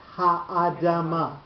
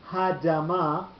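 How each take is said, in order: First: The aleph's vowel is sounded as its own syllable. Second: The aleph's vowel is dropped, merging into one syllable. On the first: The speaker calls it right. "so that the aleph gets a sound" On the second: The speaker calls it wrong. "otherwise you'll lose the aleph"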